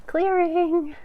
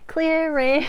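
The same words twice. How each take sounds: First: Cracked, squeaky clearing; voice cracking. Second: Voice cracking. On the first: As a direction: voice cracks up high and loud. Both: Real, not acted. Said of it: "My voice cracked".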